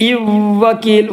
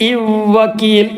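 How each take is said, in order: No difference in how they are said.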